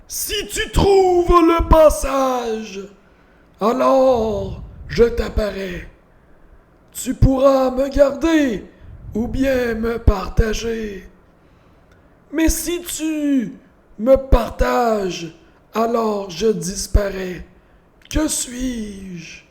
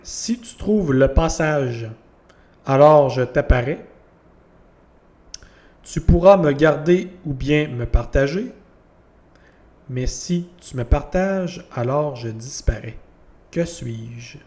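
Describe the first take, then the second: First: It is read in a put-on voice. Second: It is read in a normal voice.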